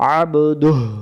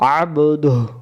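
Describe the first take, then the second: No difference in how they are said.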